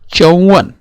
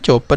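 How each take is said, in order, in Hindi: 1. बीच का व्यंजन 'v' की ध्वनि है। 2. बीच का व्यंजन 'p' की ध्वनि है। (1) "आप क्या उच्चारण करेंगे बच्चों हिंदी में" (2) "कुछ लोग इसको चौपन बोलते हैं, चौपन नहीं"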